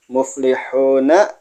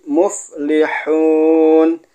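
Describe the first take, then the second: First: The word ends with a short a vowel. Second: The word ends on a silent-vowelled n. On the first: The word is read in the middle of speech. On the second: The reading stops on this word.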